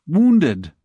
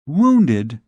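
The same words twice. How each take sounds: First: Said in the usual way. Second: Shocked, questioning echo of the word Wounded; a touch of alarm on Wounded. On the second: Acted. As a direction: repeat Wounded with dismay, louder. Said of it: "She, poor child, was completely upset".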